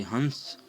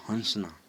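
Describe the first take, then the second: First: "हंस" with the nasal sounded through the nose; anusvara nasal sound. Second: "हंसना" with the vowel through nose and mouth; anunasika nasalised vowel. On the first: Teacher contrasting two nasal sounds, "हंस" with anusvara through the nose. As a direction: say "हंस" with a full nasal consonant before स. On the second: Teacher contrasting two nasal sounds, "हंसना" with anunasika through nose and mouth. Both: Shown as a demonstration. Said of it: "अलग-अलग आवाज़ निकलती है".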